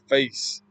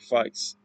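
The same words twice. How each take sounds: First: The vowel sounds like 'ay' in 'day'. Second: The vowel sounds like 'eye', as in 'fice'. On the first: "Instead of face" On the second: "taking out that A and substituting it with an I"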